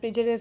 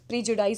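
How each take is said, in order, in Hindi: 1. आखिरी अक्षर 'dis' जैसा सुनाई देता है। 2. आखिरी अक्षर 'dize' जैसा सुनाई देता है। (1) "प्रीजुडिस होता है" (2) "प्रीजुडाइज नहीं होता"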